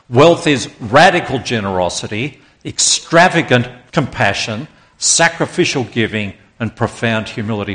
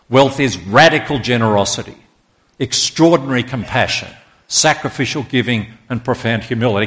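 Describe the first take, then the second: First: It is said with strong, forceful conviction. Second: It is read out in a plain way.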